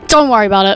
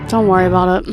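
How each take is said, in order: First: It is said in an angry tone. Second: It is said in a disappointed tone.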